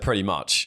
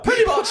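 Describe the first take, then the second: First: It is said at a low pitch. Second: It is said at a higher pitch. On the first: The speaker calls it wrong. "you said pretty much with too lower pitch" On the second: The speaker calls it right. "higher pitch next time"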